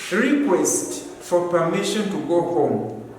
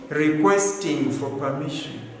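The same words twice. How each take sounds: First: "Request for permission to go home." said slowly and clearly; correct form, slowly. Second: Said in the usual way. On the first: Shown as a demonstration. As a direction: model "Request" as the right noun form. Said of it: "Not requesting for permission".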